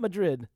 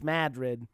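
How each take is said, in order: First: It is said like the capital of Spain. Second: It is said the local Iowa town way. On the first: This is how the capital of Spain is said. The speaker calls it wrong. "It's not Madrid" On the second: This is how the Iowa town is said. The speaker calls it right. "It's Madrid"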